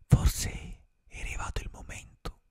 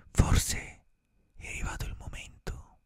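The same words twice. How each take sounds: The two takes are said the same way.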